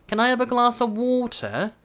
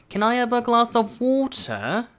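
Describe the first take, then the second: The two takes are said the same way.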